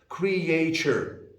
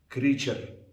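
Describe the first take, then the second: First: The word is said with three syllables. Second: The word is said with two syllables. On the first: The speaker calls it wrong. "some people may say it in three syllables" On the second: The speaker calls it right. "people with the Arabic accent may say as creature"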